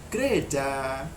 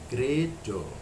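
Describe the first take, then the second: First: The final vowel is an open 'a' sound. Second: The final vowel is a rounded 'o' sound. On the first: This is how the word is written. "tulisannya kan gereja" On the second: This is the Javanese reading used in the name. "bilangnya atau bacanya gerejo"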